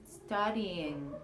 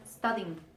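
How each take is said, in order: First: Two separate vowel sounds are heard before -ng. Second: The two vowel sounds before -ng merge into one. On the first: The speaker calls it right. "There are two sounds" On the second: The speaker calls it wrong. "the pronunciation is not studying"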